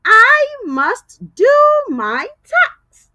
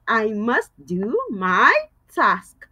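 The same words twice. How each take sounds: First: Slow, loud sentence, leaning on do; slow model sentence. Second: Said in the usual way. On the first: Shown as a demonstration. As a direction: say it slowly so kids can repeat. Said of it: "let's use it in a sentence".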